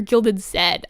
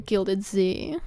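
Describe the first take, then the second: First: The last letter is said as 'zed'. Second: The last letter is said as 'zee'. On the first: The speaker calls it right. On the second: The speaker calls it wrong.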